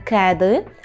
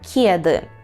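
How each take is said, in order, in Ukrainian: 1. Перший звук «k» твердий, не пом'якшений. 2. Перший звук «k» м'який, палаталізований. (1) "Не «кеди»" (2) "щоб було м'яко «кє»"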